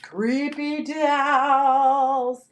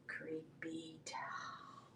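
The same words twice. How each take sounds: First: Drawn-out, swelling ghostly call; spooky wail. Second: Very slow, spooky whisper; creepy whisper. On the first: Seller spooks viewers with doll leggings, drawn-out wail. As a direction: stretch it out like a haunted-house ghost. Spooky show-off after a boo. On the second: Seller shows off doll leggings, creepy whisper. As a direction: whisper it like a ghost story, drawn right out. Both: Pretend.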